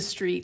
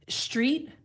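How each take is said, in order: First: The word begins with an s sound. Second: The word begins with a sh sound. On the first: "as opposed to a s sound" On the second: "where we're getting a sh sound"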